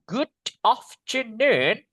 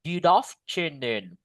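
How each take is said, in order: First: The two words are said separately, not joined. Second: The final d runs straight into afternoon. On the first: The speaker calls it wrong. "Bukan good afternoon" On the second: The speaker calls it right. "you should say good afternoon"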